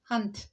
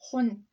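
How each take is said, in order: First: The vowel sounds like a short 'ah'. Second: The vowel sounds like a rounded 'o'. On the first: "But Glasgow standard English, hand" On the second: "Glasgow vernacular is hon"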